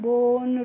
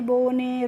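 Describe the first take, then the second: First: The word ends with no final vowel. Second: The final e is sounded as a vowel. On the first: The speaker calls it right. "कैसे पढ़ना है" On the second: The speaker calls it wrong. "इस तरीके से नहीं पढ़ना है"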